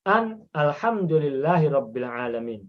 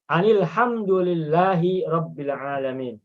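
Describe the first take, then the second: First: The article is cut off from the preceding word. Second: The article is linked smoothly to the preceding word. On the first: "dipatahkan, dipenggal, dipotong" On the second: "itu disambung langsung bacanya"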